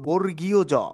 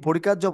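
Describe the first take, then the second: First: The name is said in full as two words. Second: The name is shortened and run together. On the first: The speaker calls it right. "বরঞ্চ প্রমিত সঠিকটি হলো বর্গীয় জ।" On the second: The speaker calls it wrong. "যদি বর্গাজ বলা হয় তাহলে কিন্তু আমাদের বলাটি ভুল হবে।"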